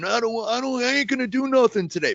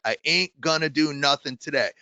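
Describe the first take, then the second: First: Higher-pitched student refusing to work; imitated defiant kid. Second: Said in the usual way. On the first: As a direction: imitate a kid digging their heels in, pitched up. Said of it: "kids are walking in all the time saying". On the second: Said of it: "Let's start with that".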